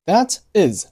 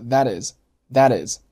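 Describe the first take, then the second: First: Said in the usual way. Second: "that is" joined as "tha-tis"; linked speech. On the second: Shown as a demonstration. Teacher showing learners linking, "that is" as one word. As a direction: carry the t of "that" into "is". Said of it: "连读成了".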